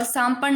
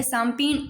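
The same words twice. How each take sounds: First: सांपण with short 'a' before the n; wrong final vowel. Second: सांपीण with long 'ee' after p; correct long i. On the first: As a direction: say सांपण as 'saam-pan'. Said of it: "सांपण नहीं होता है". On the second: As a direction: say सांपीण as 'saam-peen'. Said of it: "पी होता है सांपीण". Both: Shown as a demonstration.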